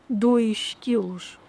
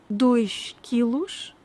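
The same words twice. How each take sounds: First: "dois quilos" very slow, sh linked to quilos; slow demo. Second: "Dois quilos" very slow; slow demo. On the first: Teacher slowly repeating dois quilos linked. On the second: Teacher slowly sounding dois quilos. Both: Shown as a demonstration. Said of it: "pronunciadas da mesma maneira".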